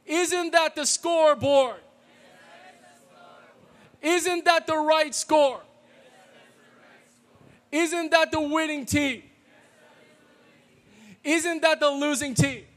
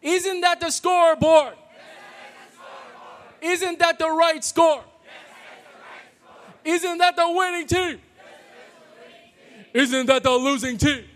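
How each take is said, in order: First: High, louder chant leading the crowd; cheerleader call. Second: High, much louder stadium shout; shouted cheerleader call. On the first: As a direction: call it out for the room to answer. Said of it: "I'll be the cheerleader and you guys respond". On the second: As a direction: yell it like a packed rival gym. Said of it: "Pretend it's maniacs from Ottawa Hills". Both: Shown as a demonstration.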